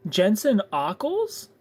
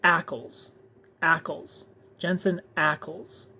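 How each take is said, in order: First: Ockles as OCK-ulls, drawn out, rising; slow, doubtful "Jensen Ockles?" with an "ah" vowel; questioned pronunciation. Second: Ackles as ACK-ulls, rhyming with "tackles"; measured repeats of Ackles, short flat first vowel; short A pronunciation. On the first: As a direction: say Ockles to rhyme with "cockles", as a question. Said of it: "That's not how you spell Ockles". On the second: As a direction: say Ackles with the A of "apple". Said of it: "You're saying". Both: Shown as a demonstration.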